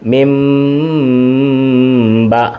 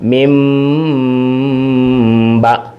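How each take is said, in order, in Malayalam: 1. b ക്ക് മുമ്പുള്ള നാസികം m പോലെ കേൾക്കുന്നു. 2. b ക്ക് മുമ്പുള്ള നാസികം m പോലെ കേൾക്കുന്നു.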